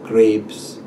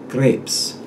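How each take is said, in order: First: It is said with an American long A vowel. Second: It is said with a Russian short E vowel. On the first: "an American long A" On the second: "the muddled pronunciation of the Russian speaker"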